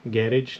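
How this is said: It is said in a British accent. "if you're British, you would say garage"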